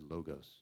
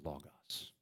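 First: The word is said in an anglicized way. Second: The word is said in a Greek way. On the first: The speaker is a beginner. The speaker calls it wrong. "You could always tell the first-year seminary students because they said logos" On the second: The speaker is knowledgeable. The speaker calls it right. "But the proper pronunciation, just for if you want to appear slick, is logos"

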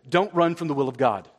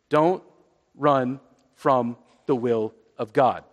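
First: The sentence is said at a normal pace. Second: The sentence is said at a slow pace.

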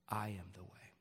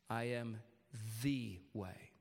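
First: The stress is on "I". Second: The stress is on "the".

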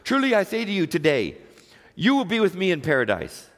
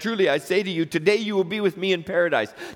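First: The pause comes after today. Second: The pause comes before today.

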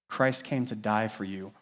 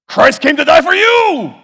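First: It is said in a calm, gentle tone. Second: It is said in a harsh, angry tone. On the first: The speaker calls it right. "It's like saying" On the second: The speaker calls it wrong. "His tone was angry and bitter and mad"

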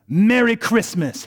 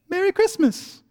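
First: It is said in a defiant, mocking tone. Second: It is said in a warm, kind tone.

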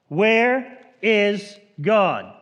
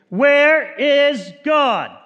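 First: It is asked in a sterner voice. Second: It is asked in a loud, raised voice.

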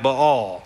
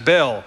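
First: It is said with the scholarly pronunciation. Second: It is said with a Southeast Texas pronunciation. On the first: The speaker calls it right. "His name is really more pronounced something more like Baal" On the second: The speaker calls it wrong. "my old seminary professors would be a little bit frustrated with me for pronouncing Baal's name as Baal"

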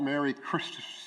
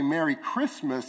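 First: The s sound is lisped and whistly. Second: The s sound is clear and crisp. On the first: The speaker is missing their front teeth. The speaker calls it wrong. "and not Merry Christmas" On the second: The speaker has all their front teeth. The speaker calls it right. "So that they could actually say Merry Christmas"

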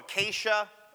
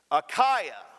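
First: The word ends with an 'ay-sha' sound. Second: The word ends with an 'eye-ah' sound. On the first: The speaker calls it wrong. "I always go Acacia. There's no C there that would allow that kind of pronunciation" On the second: The speaker calls it right. "It's Achaia"

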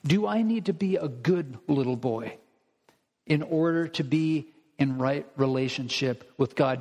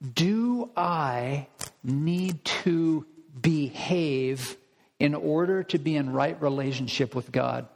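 First: It is asked in a snide, mocking tone. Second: It is asked in a plain, neutral tone.

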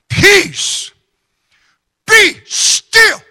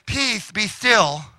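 First: It is said strongly and commandingly. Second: It is said softly and weakly.

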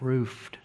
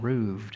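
First: The word is said with an F sound. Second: The word is said with a V sound. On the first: The speaker calls it wrong. "instead of roofed" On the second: The speaker calls it right. "I think it's correct to use the V sound"

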